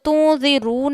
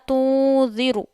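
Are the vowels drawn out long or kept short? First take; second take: long; short. First: The vowels are drawn out long. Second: The vowels are kept short. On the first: The speaker calls it wrong. "नहीं पढ़ना" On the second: The speaker calls it right. "कभी भी हम ज़बर ज़ेर पेश को खींचते नहीं हैं"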